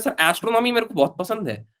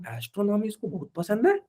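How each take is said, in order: First: Lightly voiced student, pitched higher; retold eager student. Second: Soft, higher questioning echo, rising at the end; retold incredulous aside. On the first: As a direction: quote a student announcing a favourite subject, higher. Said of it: "एक बच्चा बोल रहा है". (छात्र की हल्की नकल, ऊँचे सुर में) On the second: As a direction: echo the student's claim in quiet disbelief. Teacher's doubting aside about student. (हैरानी भरा धीमा सवाल, ऊँचे सुर में)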